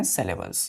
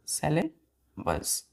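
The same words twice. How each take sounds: First: Said in the usual way. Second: "syllables" split as sylla... bles, softly; soft, slow teaching breakdown of "syllables". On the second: Shown as a demonstration. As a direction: say "syllables" slowly with a gap before the last part. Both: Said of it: "तो सिलेबल्स क्या है".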